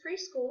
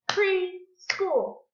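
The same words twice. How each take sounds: First: Said in the usual way. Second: "Preschool" higher, in two separate beats; clapped syllables. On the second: Shown as a demonstration. Teacher clapping out a word for pupils, syllable by syllable. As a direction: break "Preschool" into pre, pause, school. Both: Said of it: "Let's clap it out".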